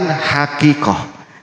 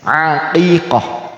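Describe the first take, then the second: First: The word begins with an h sound. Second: The word begins without an h sound. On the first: The speaker calls it wrong. "bukan hakikoh" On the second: The speaker calls it right. "pakai ain tulisannya"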